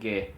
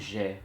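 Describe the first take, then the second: First: The g is hard, like in gate. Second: The g is soft, like a zh sound. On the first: The speaker calls it right. "vai dizer Gué" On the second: The speaker calls it wrong. "não vai dizer Ge como Gé"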